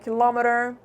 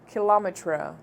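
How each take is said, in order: First: It is said in an American accent. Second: It is said in a British accent.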